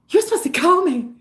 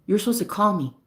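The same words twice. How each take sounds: First: High-pitched, put-on movie whine; Mean Girls impression. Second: Said in the usual way. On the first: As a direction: parody a wronged teen-movie girl. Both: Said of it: "that movie Mean Girls".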